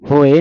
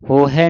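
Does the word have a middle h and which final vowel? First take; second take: no h; h, ai. First: There is no middle h sound. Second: There is a middle h and final 'ai' vowel. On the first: "ਹੋਏ ਨਹੀਂ ਪੜਨਾ" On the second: "ਹੋਹੈ ਨਹੀਂ ਪੜਨਾ"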